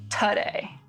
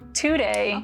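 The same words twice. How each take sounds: First: The first vowel is reduced to a schwa. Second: The first vowel is full, not reduced.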